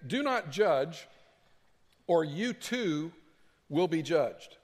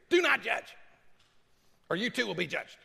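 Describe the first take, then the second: First: It is read in a plain, neutral way. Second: It is read with a sassy, combative attitude.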